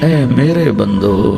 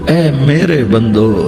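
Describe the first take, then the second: The two takes are said the same way.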